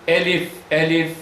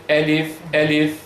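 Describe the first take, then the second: The two takes are said the same way.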